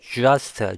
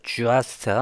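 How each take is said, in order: The two takes are said the same way.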